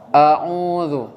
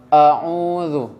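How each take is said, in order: No difference in how they are said.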